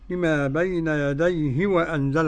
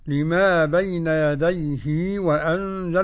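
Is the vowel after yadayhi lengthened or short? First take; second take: short; lengthened. First: The vowel after the final h is short. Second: The vowel after the final h is lengthened. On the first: "بدون مد كده" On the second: "بصلة الهاء حركتين"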